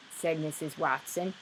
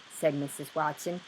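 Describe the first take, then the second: No difference in how they are said.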